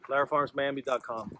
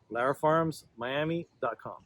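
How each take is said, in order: First: It is said at a faster pace. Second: It is said at a slower pace.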